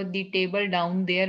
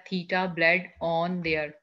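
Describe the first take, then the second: First: "The table down there" said slowly, word by word; slow read-out example. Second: "Theta bled on there" said slowly, regrouping the same sounds; alternate segmentation. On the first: Teacher slowly reading the sentence to the class. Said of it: "लेकिन अगर आपको". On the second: Teacher showing students the wrong word split. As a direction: run the sounds together into new words. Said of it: "या". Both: Shown as a demonstration.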